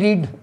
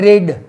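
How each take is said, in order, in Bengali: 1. এই স্বরধ্বনিটি দীর্ঘ 'ee' ধ্বনি। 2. এই স্বরধ্বনিটি হ্রস্ব 'e' ধ্বনি। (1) "রিড মানে পড়া" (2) "র একার ড"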